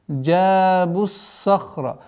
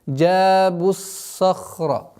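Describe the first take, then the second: No difference in how they are said.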